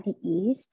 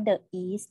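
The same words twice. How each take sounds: First: "the east" said as "thee east"; long ee in "the" before "east". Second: "the east" with a schwa, "thuh east"; wrong-way demo, "thuh east"; "thuh" before east. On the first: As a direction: model "the" as "dee" before "east". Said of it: "เราอ่านว่า the นะคะ the east". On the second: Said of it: "เราไม่อ่านว่า the east นะคะ". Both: Shown as a demonstration.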